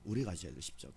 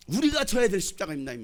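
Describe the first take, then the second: First: Much softer, low repeat of the line; soft echo. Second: Emphatic. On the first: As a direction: let it sink in quietly. Preacher repeats line softly. (낮고 조용하게 되뇌듯) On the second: Preacher repeats line, then softly. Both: Acted.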